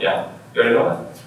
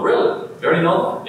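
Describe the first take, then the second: First: Said in the usual way. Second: High, disbelieving question; shocked surprise. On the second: Acted. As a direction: ask it in astonished disbelief, voice jumping up. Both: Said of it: "they're shocked and surprised and going".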